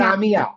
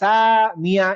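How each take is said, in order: First: The vowels are kept short without any stretching. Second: The vowels are drawn out and stretched long. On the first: The speaker calls it right. "আমি কোনোটাতে টান দেই না" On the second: The speaker calls it wrong. "সা মিয়া এরকম বলি না"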